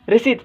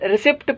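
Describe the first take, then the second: First: No p sound is heard before the final t. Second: A p sound is heard before the final t. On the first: The speaker calls it right. "हिते पी ख़ामोश आहे, सो हिन जो सही उचार आहे" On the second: The speaker calls it wrong. "हिन खे अक्सर students रिसिप्ट पढ़ंदा आहिनि, सो बिल्कुलु ग़लति आहे"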